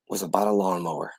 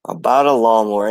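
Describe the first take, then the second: First: Soft, dropping away to almost nothing; trailing off. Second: Lawnmower repeated with weight and force; emphatic repeat. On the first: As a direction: let it fade out under your breath. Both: Real, not acted.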